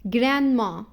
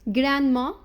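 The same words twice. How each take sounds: The two takes are said the same way.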